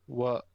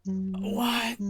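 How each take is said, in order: First: Said in the usual way. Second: Sharp, startled "What?"; surprised. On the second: Real, not acted. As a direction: blurt it out, thrown. Sudden outburst after long silence.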